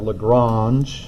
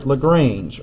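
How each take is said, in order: First: The name is said with French-style sounds. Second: The name is said with English-style sounds.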